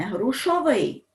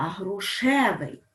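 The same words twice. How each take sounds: First: "грушовий" with an O after the sh; wrong form with O. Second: "грушевий" with an E after the sh; correct form with E. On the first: Teacher showing students the form to reject, "грушовий" with O. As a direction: say "грушовий" with -ov-, higher-pitched. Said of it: "Не грушовий". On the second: Teacher giving students the correct form, "грушевий" with E. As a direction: say "грушевий" with a clear -ev-. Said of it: "а грушевий". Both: Shown as a demonstration.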